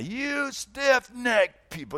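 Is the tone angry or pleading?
angry. It is said harshly, with contempt.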